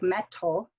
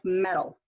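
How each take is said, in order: First: The middle consonant is a crisp unvoiced T. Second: The middle consonant is a voiced D-like flap. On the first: The speaker calls it wrong. "metal does not sound like" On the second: The speaker calls it right. "Sounds like a D because it's voiced"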